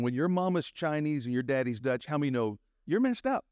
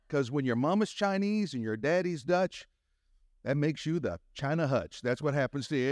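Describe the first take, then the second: First: Said in the usual way. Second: Raised pitch, leaning into the joke; building punchline. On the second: Real, not acted. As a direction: sell the China Hutch punchline. Punchline, higher than first telling.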